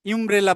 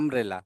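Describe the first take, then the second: First: The word begins with a 'yoo' sound. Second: The word begins with a plain 'uh' vowel. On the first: The speaker calls it wrong. "ইউমব্রেলা বলতেছি না আমরা" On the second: The speaker calls it right. "কিন্তু এখানে বলতেছি আমব্রেলা"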